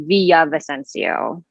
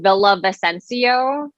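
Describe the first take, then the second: First: It is said with a Spanish pronunciation. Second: It is said with an American pronunciation.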